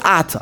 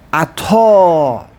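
First: The stress is on the first syllable. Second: The stress is on the second syllable. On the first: The speaker calls it wrong. "No one says Atah unless you're a Chosid" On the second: The speaker calls it right. "you never ever put the emphasis on the Aleph? It's always on the Tav"

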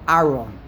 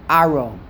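The two takes are said the same way.

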